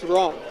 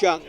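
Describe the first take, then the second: First: The name begins with an R sound. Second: The name begins with a J sound. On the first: The speaker calls it right. "but it's pronounced" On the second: The speaker calls it wrong. "It looks like Jung, as in Josh Jung"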